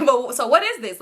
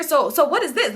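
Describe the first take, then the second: First: Said in the usual way. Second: Pitched-up, demanding imitation of a sister; exaggerated sister impression. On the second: Storyteller overplaying her sister's question about the paper, pitched up and demanding. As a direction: put on a higher voice for the interrogator. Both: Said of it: "she ain't talking like that, though".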